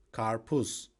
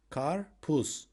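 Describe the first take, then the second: First: Said in the usual way. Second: "Karpuz" split in two, kar, puz; syllable by syllable. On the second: Shown as a demonstration. Teacher showing learners the word for watermelon, "Karpuz" syllable by syllable. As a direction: pause between the syllables of "Karpuz".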